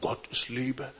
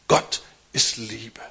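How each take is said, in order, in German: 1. Die Betonung liegt auf Liebe. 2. Die Betonung liegt auf Gott. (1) "Wir werden nicht mehr sagen" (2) "sondern wir werden sagen"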